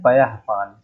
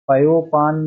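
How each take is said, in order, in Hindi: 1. पहला भाग हल्की साँस वाले 'ah' की आवाज़ पर खत्म होता है। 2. पहला भाग सादे 'o' की आवाज़ पर खत्म होता है। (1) "या के बाद अह वाला मात्रा रहेगा" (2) "पयोपान नहीं होता है"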